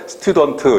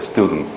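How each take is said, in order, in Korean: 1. 한국식으로는 네 음절로 발음해요. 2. 미국식으로는 두 음절로 발음해요. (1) "스튜던트 이렇게 한국식으로 발음을 하는 거야" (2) "미국 사람들은 이거를 이음절로 인식을 해요. 스튜던트. 이렇게 발음해요"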